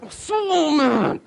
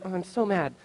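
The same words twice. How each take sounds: First: Long, high mock scream of anger; inner rage, acted out. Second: Softly muttered, held-in annoyance; contained anger. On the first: Pastor voicing his inside reaction to the smashed window, hammed-up rage. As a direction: stretch it out in a hammed-up high wail. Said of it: "inside, I was like". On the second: Retold or imitated. Pastor on how he outwardly took his smashed window, anger held in. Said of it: "it was really like".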